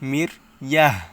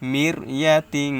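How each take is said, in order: First: The word stops and ends with an h sound. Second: The word ends nasally, joined to the next word. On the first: The reader pauses at this point. "যদি অক্ফ করেন তাহলে গোলটাকে হা উচ্চারণ করতে হবে" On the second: The reader continues without pausing. "এভাবে গুণনা করতে হবে"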